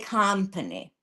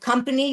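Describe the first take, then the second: First: The vowels are changed to sound Hungarian. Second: The vowels are plain English ones. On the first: "you say company" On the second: "instead of company"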